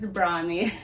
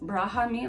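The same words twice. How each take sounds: First: The H sound is left silent. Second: The H sound is clearly pronounced. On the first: The speaker calls it right. "the H is kind of silent" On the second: The speaker calls it wrong. "like us Canadians say H"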